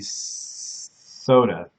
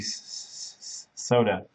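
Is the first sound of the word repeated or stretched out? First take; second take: stretched; repeated. First: The first sound is dragged out long. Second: The first sound is repeated before the word. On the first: "but it also could be soda like that" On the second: "so the soda one could be s- soda"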